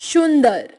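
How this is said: It is said with a Bengali regional accent. "Bengali उच्चारण"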